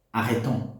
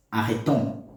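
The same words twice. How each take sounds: The two takes are said the same way.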